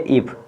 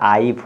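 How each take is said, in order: First: The vowel is a short 'i' sound. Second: The vowel is a long 'eye' sound. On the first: The speaker calls it right. "छोटी सी यानी उच्चारण करेंगे तो क्या करेंगे इफ" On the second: The speaker calls it wrong. "ये आइफ आपका गलत हो जाएगा"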